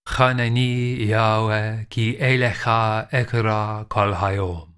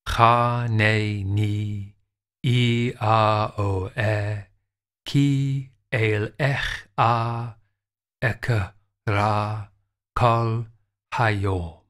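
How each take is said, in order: First: The phrase is read quickly, syllables run together. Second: The phrase is read slowly, syllable by syllable. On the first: "Or it could go this fast" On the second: "Here's an example read slowly"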